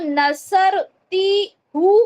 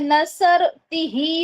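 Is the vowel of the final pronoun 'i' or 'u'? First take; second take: u; i. First: The pronoun is said with the vowel u. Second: The pronoun is said with the vowel i. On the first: The speaker calls it wrong. "ये जो हु है ये क्या हो जाता है" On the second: The speaker calls it right. "ही में तब्दील हो जाता है"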